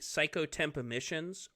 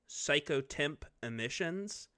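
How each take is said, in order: First: It is said at normal speed. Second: It is said slowly.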